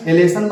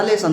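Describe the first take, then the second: First: "एलेसन" with the letter name el up front; wrong reading. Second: "लेसन" with L as a plain la sound; correct reading. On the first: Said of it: "नहीं लिखोगे". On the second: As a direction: read "लेसन" smoothly, starting straight on the L. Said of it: "एलेसन बनेगा". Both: Shown as a demonstration.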